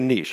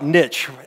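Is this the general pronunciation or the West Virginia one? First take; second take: general; West Virginia. First: It is the general, slightly pretentious pronunciation. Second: It is the West Virginia pronunciation.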